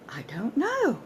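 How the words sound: It sounds genuinely surprised. "Genuine surprise at not knowing"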